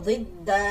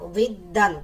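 First: The word ends with a long 'a' sound. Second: The word ends with a short 'an' sound. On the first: The reading stops on this word. "কিন্তু থামার কারণে হবে জিদ্দা" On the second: The reading continues without stopping. "দাল আলিফ দুই জবর দান"

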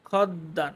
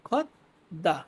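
First: The first syllable runs into a doubled d sound. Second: The first syllable ends in a clear t sound. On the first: The speaker calls it wrong. "খদ্দা না" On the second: The speaker calls it right. "এটার উচ্চারণ ত হবে"

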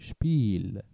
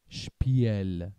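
First: The i vowel is long. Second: The i vowel is short. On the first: The speaker calls it right. "فقط باعث میشه که ما این ای رو بکشیم" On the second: The speaker calls it wrong. "نمیگیم شپیل"

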